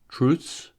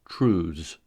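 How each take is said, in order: First: The ending is voiceless, like th plus s. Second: The ending is voiced, like th plus z. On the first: "the voiceless consonant cluster ths" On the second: "the voiced consonant"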